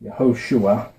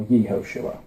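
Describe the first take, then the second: First: Yehoshua with a quick, neutral "yuh" at the start; short first vowel. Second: Yehoshua with a clear "yee" at the start; long first vowel. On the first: Teacher giving the usual vowel-pointed name, Yehoshua said "yuh-HO-shua". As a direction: open Yehoshua on a reduced "yuh", stress on "ho". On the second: Teacher giving the other reading of the name, Yehoshua said with "yee". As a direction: begin Yehoshua as "yee-HO-shua". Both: Shown as a demonstration. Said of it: "which is usually pronounced".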